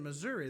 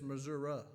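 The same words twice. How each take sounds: First: The word ends with an ee sound. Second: The word ends without an ee sound. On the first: The speaker's own way of saying it. "but it's got an I on it" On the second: The way the locals say it. "That's how they said Missouri"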